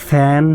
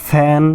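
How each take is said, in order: The two takes are said the same way.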